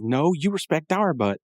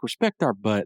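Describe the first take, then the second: First: "you" pushed high in a slow retort; Rigby's emphatic retort. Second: Said in the usual way. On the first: Retold or imitated. Rigby turning the punks' insult back, stress on "you". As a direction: throw it back, leaning on "you". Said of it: "And then Rigby says". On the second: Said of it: "And they're like".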